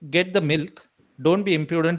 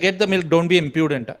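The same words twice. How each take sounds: First: There is a full pause after 'milk'. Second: It runs on with no pause after 'milk'.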